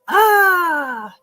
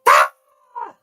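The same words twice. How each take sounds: First: The scream is mild and not very frightening. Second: The scream is intense and sounds truly frightened.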